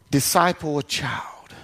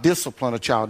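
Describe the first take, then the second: First: "disciple" said clearly as di-SCI-ple, no -line ending; careful "disciple" with the long i; disciple, not discipline. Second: "discipline" said fully as DIS-ci-pline with the -line ending; low correcting "discipline"; discipline, the corrected word. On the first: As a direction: lean on "disciple" so it isn't heard as discipline. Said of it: "we disciple them". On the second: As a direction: set "discipline" apart from disciple. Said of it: "no, not discipline a child". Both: Shown as a demonstration.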